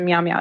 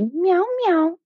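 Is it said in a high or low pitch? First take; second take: low; high. First: It is said in a low pitch. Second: It is said in a high pitch.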